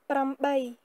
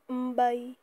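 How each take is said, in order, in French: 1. Le mot est prononcé en entier, il commence par pr. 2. Le mot est coupé court, il commence par m. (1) "ce sera prambay" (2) "Pambay ou mbay"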